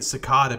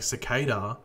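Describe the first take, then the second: First: It uses the Australian regional pronunciation. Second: It uses a different, non-regional pronunciation. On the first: This is how everyone in the speaker's region says it. "I say cicada because where I'm from in Australia, that's how it's said" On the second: This is how the show and others say it. "the show was saying cicada"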